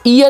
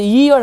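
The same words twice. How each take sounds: First: The word starts directly with a vowel sound. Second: The word starts with a y sound. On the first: The speaker calls it wrong. "ईयर नहीं" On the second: The speaker calls it right. "ईयर होता है"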